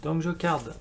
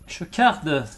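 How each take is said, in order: First: Said in the usual way. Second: Put-on joking German accent, a touch louder; lightly hammed German accent; mock German accent. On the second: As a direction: say it like a playful German. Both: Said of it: "J'ai pris l'accent allemand".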